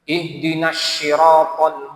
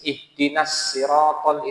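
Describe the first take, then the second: First: Sirat begins with a sh sound. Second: Sirat begins with an s sound. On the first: The speaker calls it wrong. "Huruf shad berubah jadi shin" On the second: The speaker calls it right. "kalau dia bacanya pakai sin ... itu masih boleh"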